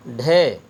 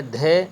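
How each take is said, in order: First: ڈھے with a retroflex, breathy ḍh; ڈھے as ɖʱe; retroflex aspirated. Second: دھے with a dental, breathy dh; دھے as d̪ʱe; dental aspirated. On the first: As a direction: say ڈھے with the tongue curled back, then a puff. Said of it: "اس کا تلفظ ہوا ڈھے". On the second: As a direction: say دھے with the tongue on the teeth, then a puff. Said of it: "اگر دو چشمی نہ ہو تو پھر ہوتا ہے دھے". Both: Shown as a demonstration.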